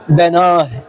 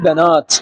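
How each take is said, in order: First: The word ends with an h sound. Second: The word ends with a t sound. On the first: The speaker calls it wrong. "لا تقول في الوقف بناه" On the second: The speaker calls it right. "بل تقول بنات"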